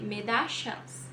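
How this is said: It is said with an Argentine regional accent. "Na Argentina, eles vão, Argentina e Uruguai, né? Eles vão dizer"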